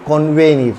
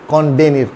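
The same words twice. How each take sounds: First: Convenir said as kon-VE-neer; correct V sound. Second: Convenir said as kon-BE-neer; wrong B sound. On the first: Teacher correcting for learners, convenir with clear V. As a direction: model convenir with V after N. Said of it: "फिर वी की तरह pronounce करता है". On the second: Teacher showing learners what to avoid, convenir with B. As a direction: show the mistake, convenir with B for V. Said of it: "not con". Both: Shown as a demonstration.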